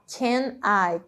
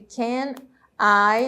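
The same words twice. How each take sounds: First: The two words are joined together. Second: The two words are said separately.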